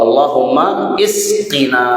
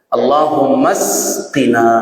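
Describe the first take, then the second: First: The second word starts with an 'i' vowel. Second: The second word starts directly with an 's'. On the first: "Boleh juga alifnya ini dibaca kasroh" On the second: "itu tandanya alifnya wasal"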